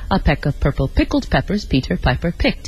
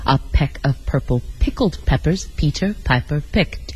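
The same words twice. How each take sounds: First: It is said at a moderate pace. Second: It is said slowly, word by word.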